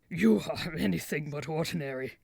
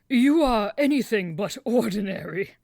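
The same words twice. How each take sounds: First: It is said in a low grumble. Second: It is said plainly, without grumbling.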